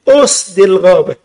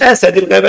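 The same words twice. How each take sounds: First: The first word is said as 'usd'. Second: The first word is said as 'asad'. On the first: It means 'lions of the thicket', the book's title. The speaker calls it right. "اسمه أسد الغابة" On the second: It is taken as 'the lion of the forest'. The speaker calls it wrong. "مش أسد الغابة. الأسد ده عندك أنت"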